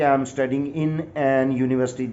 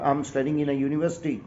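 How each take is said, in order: First: Slow, deliberate wrong example; wrong version, slow. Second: Slower, softer correct example; correct version, slow. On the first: Teacher slowly reads the wrong example. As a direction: drag out the wrong sentence for the class. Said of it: "عجیب سا فکرہ آپ کو لگنے لگا". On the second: Teacher reads the corrected sentence, measured and clear. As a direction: read the fixed sentence out clearly. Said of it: "یہ بات غلط ہوگی". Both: Shown as a demonstration.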